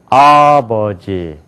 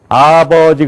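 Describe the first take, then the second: First: Said American-style, one syllable strongly stressed. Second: Said the Korean way, syllables even.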